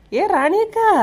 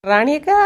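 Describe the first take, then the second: First: Much higher, drawn-out second call. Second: First call, a little higher. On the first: Young woman calls the neighbour again, high and drawn out. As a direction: call again, really pitching it up. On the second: Young woman calls the neighbour from outside, mildly raised. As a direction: call her name from the doorway. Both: Acted. Calling at the door.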